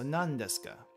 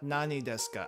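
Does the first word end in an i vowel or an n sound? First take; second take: n sound; i vowel. First: The first word ends with an n sound. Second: The first word ends with an i vowel. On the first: The speaker calls it right. "Nani is pronounced as nan and not nani" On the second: The speaker calls it wrong. "It would sound a little weird though"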